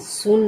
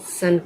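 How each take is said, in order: First: The vowel is a rounded 'oo' sound. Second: The vowel is an open 'uh' sound. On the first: The speaker calls it wrong. "S यू N सुन नहीं कहेंगे" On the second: The speaker calls it right. "S यू N को हम सन कहेंगे"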